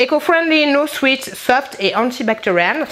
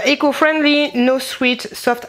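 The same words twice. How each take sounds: First: Mock American accent, slower on antibacterial; hamming up the American YouTuber English. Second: Reading the label like an American YouTuber, English accent. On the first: Vlogger repeats the label in a hammed-up American accent. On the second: Vlogger reading sock label in a mock American accent. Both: Real, not acted. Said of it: "parler comme une américaine".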